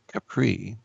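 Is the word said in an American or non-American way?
American. It is said in an American way.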